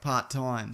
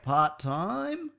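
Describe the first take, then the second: First: It is said firmly, falling at the end. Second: It is said unsurely, rising at the end.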